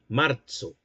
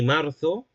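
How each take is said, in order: First: The z is said with a ts sound. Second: The z is said with a th sound. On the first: This is how it was said in the Middle Ages. "como con una T y una S" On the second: This is how speakers in north-central Spain say it. "como un hablante perteneciente al centro norte de España"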